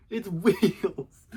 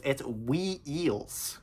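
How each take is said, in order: First: Clipped one-beat wheels, no dip; firm high loud wheels; wheels as one syllable. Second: Mock kid stretching wee-eels; drawn-out wee-eels. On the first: Shown as a demonstration. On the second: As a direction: stretch wheels into two syllables, wee-eels. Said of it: "And he's like".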